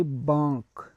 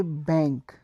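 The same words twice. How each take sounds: First: Banque said baŋk with an open French a. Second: Said in the usual way. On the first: Shown as a demonstration. Teacher contrasting English and French for students, banque in French. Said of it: "in French we say". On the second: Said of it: "in English we say".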